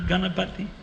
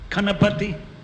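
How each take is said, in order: First: It begins with a g sound. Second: It begins with a k sound. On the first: The speaker calls it right. "not Ganapati" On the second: The speaker calls it wrong.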